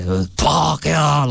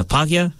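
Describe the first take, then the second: First: "Uh, Pākehā" drawn out slowly, with a lead-in "uh" and a falling end; grandfather's Pākehā. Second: Said in the usual way. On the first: Retold or imitated. Actor imitating his grandfather's slow, falling "Pākehā". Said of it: "that's how he says it". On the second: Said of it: "his favorite word is".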